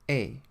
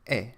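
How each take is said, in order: First: A closer e vowel, as in pay. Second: An open e vowel, as in fed. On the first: "like the vowel sound in the English word pay, but without the Y sound" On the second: "pronounced like the E sound in the English word fed"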